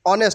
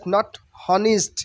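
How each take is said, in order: First: The h at the start is silent. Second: The h at the start is sounded. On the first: The speaker calls it right. "H will be silent here" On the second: The speaker calls it wrong.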